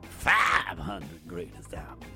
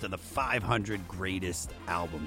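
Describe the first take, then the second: First: It is said in a deep growling voice. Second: It is said in a normal voice.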